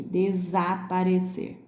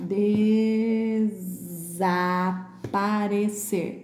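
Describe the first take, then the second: First: Desaparecer in measured syllables, short voiced Z; careful repeat. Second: Desaparecer very slowly, long first syllable and buzzed Z; stretched Z sound. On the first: Teacher repeating the word, moderately slow desaparecer with a short Z. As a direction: say desaparecer carefully without stretching it. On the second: Teacher pointing out the S, very slow desaparecer with long Z. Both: Shown as a demonstration. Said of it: "Esse S aqui".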